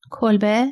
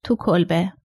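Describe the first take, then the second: First: "کلبه" with a rising questioning end; questioning echo. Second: Reticent, lightly held-back answer on "تو کلبه"; restrained. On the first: Son-in-law checking where the old man is, questioning. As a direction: repeat "کلبه" back as a puzzled question. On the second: Old man admitting where he is, restrained. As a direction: give "تو کلبه" reluctantly, with a falling end. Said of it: "اوتو با خودداری گفت". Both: A narrator's reading.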